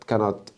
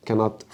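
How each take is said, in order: Both takes have the same delivery.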